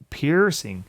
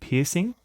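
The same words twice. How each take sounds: First: The word is said in an American accent. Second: The word is said in an Australian accent.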